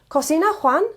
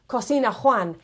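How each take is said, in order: First: The pitch rises at the end. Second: The pitch stays flat at the end. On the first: It asks whether Juan cooks. The speaker calls it right. "if I rise my intonation at the end, it becomes a question" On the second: It does not sound like a question. The speaker calls it wrong. "it doesn't sound much like a question"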